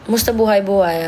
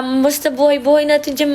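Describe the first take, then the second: First: Lower, gruff street-slang greeting; a lightly voiced street tough saying hi; tough-guy greeting. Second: Said in the usual way. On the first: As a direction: drop into a cool gangsta voice.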